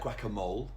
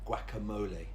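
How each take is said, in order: First: The word is said with one syllable fewer. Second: The word is said with one extra syllable. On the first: The speaker calls it wrong. "it looks like guacamole" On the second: The speaker calls it right. "it's an extra syllable"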